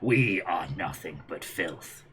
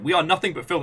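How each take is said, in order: First: It is said in a cold, stern manner. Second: It is said in a flamboyant, campy manner. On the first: "if you go all Gendo Ikari on it" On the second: "if you go all full like drag on it"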